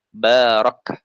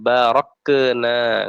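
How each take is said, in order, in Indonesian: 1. Konsonan terakhir ditahan tanpa memantul. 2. Konsonan terakhir memantul dengan vokal gema.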